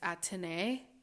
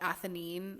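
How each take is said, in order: First: The name is said in the French way. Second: The name is said in a non-French way. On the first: This is the proper French pronunciation. "I think the French pronunciation is Athénée" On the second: This is how some people say it. "some people call it Athénine"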